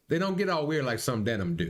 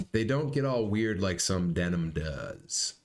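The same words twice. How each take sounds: First: Muffled balaclava guy voice, higher and brighter; lightly voiced masked character; through a balaclava. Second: Said in the usual way. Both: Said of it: "Sorry, that was Balaclava guy".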